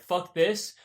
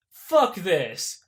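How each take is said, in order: First: Said in the usual way. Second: Mock angry decision. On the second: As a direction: slam it down in mock disgust. Jerry decides to defect.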